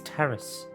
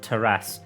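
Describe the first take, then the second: First: It is said like the ordinary word terrace. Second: It is said like the word Tarrasque. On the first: The speaker calls it right. "I think it's terrace" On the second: The speaker calls it wrong. "not terrace. I pronounced that like Tarrasque"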